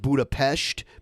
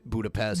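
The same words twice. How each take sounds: First: The city name is said the local way. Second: The city name is said the American way. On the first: This is how the name is properly said. "It's actually pronounced Budapest" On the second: This is how the speaker usually says it. "but I say it Budapest"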